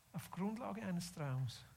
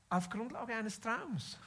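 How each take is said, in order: First: Slow, softened delivery for effect; quiet, deliberate, reflective-sounding repeat; hushed emphasis. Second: Slow, drawn out at usual volume, falling on "Traums"; measured, deliberate emphasis through to "Traums"; emphatic statement. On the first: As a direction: drop the volume and let it sink in. Repeats the line, now softer. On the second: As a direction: state it slowly and clearly, letting "Traums" fall. Repeats the line for effect. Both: Real, not acted.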